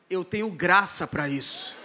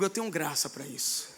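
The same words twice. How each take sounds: First: It is said with forceful authority. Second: It is said in an ordinary tone.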